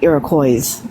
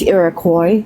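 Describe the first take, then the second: First: The final S sound is pronounced. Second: The final S sound is silent. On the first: The speaker calls it wrong. "not Iroquois" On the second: The speaker calls it right. "it's Iroquois, The S is silent"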